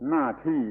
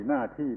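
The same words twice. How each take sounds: The two takes are said the same way.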